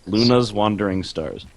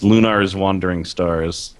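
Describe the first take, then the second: First: "Luna's" with no R, LOO-nuhz; "Luna's" as LOO-nuhz, second syllable reduced; pronounced without R. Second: "Lunar's" with an audible R, LOO-narz; "Lunar's" as LOO-narz, R clearly sounded; pronounced with an R. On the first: Alternative pronunciation of the game title. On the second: Game title read with two pronunciations. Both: Shown as a demonstration.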